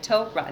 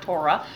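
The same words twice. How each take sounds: First: The first syllable sounds like 'toe'. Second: The first syllable sounds like 'tor'. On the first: The speaker sounds like a long-time insider. The speaker calls it right. "T-O-E dot R-A-H, Torah. That's how you pass" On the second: The speaker is marked as a newcomer. The speaker calls it wrong. "not Torah. When you say Torah, everybody, you're labeling yourself"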